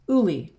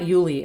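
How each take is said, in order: First: The name begins with an 'oo' sound. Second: The name begins with a 'y' sound. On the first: The speaker calls it right. "It's Uli" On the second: The speaker calls it wrong. "it's actually not Yuli"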